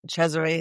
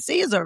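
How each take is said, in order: First: The name is said with its Italian pronunciation. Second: The name is said with its American pronunciation. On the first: "Cesare is the pronunciation Italian" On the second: "the American version of it"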